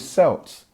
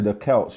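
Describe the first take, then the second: First: The word begins with a soft s sound. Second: The word begins with a hard k sound. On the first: The speaker calls it wrong. "it should be Celts, as in Celtics" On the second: The speaker calls it right. "when you hear me say the Celts"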